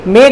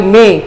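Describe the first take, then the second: First: मई said in two syllables, "ma-ee"; Hindi pronunciation. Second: मई said as one syllable, "may"; English pronunciation. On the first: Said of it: "Hindi में बोलते हैं हम". (मई का हिंदी उच्चारण, "म-ई") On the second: English name before the Hindi one. (मई का अंग्रेज़ी उच्चारण, "मे") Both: Shown as a demonstration.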